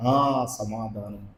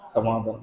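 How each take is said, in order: First: సమాధానం stretched slowly and hushed; slow emphatic answer. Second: Said in the usual way. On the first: Shown as a demonstration. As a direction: say సమాధానం slowly, lower and softer. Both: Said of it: "ఏం చేశాడండి?".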